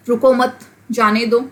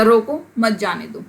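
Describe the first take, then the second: First: "रुको मत", a clear break, then "जाने दो"; pause after मत. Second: "रोको", a clear break, then "मत जाने दो"; pause after रोको. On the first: Teacher showing punctuation changes meaning, pausing after "मत". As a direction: break the phrase right after "मत", before "जाने दो". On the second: Teacher showing punctuation changes meaning, pausing after "रोको". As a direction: break the phrase right after "रोको", keep "मत जाने दो" together. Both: Shown as a demonstration. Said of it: "सिर्फ एक पंक्चुएशन का ही तो फ़र्क है".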